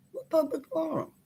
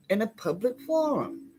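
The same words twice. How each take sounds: First: Higher, incredulous throw-back of the letter's words; indignant. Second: Said in the usual way. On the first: Real, not acted. Tenant scoffs at the lawyer's letter, incredulous. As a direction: scoff at the claim, disbelieving. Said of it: "This was made in a phone call in my house".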